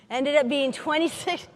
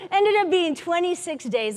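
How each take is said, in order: First: Said in the usual way. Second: Rueful laugh at the twenty-six days; laughing disbelief. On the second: Real, not acted. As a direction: laugh at how long it really took.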